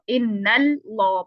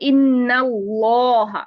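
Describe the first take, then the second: First: The L sound is light and thin. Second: The L sound is heavy and full. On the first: The speaker calls it wrong. "इन्नल्लाह पढ़ते हैं तो ये गलत है" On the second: The speaker calls it right. "लाम को ही आपने हैवी कर देना है"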